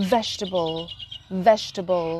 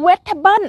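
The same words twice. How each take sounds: First: "Vegetable" low, soft, as VEJ-tuh-bul; English-style "Vegetable". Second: "Vegetable" high as wet-tha-bun; Thai-style "Vegetable". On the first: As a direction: model "Vegetable" with v, stressed first. ("Vegetable" แบบอังกฤษ เสียงต่ำ เบา เน้นพยางค์แรก) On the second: ("Vegetable" สำเนียงไทย เว็ดทะเบิ้น เสียงสูง) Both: Shown as a demonstration. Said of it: "เราสิออกเสียงถูกกันกี่ค".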